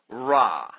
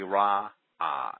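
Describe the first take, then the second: First: The word is said as one short syllable. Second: The word is said as two syllables. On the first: The speaker calls it wrong. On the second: The speaker calls it right.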